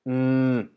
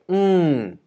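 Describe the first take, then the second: First: The pitch stays level in the middle range. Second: The pitch starts high and falls steeply. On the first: "the middle tone, which actually is more like mm" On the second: "the falling tone, which is falling"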